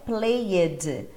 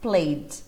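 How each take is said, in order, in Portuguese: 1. O final é uma sílaba extra, com vogal. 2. O final é só o som de d. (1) "Dá uma vontade de falar esse E" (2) "é só o som do D mesmo"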